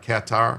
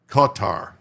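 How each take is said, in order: First: It is said the way outsiders pronounce it. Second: It is said the way locals pronounce it. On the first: The speaker calls it wrong. "not Qatar" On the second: The speaker calls it right. "Natives call it Qatar"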